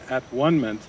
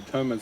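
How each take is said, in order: First: It is split into three parts: at, one, ment. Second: It is said as one run-together word. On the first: It refers to oneness beyond time and space. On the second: It refers to the correction before oneness.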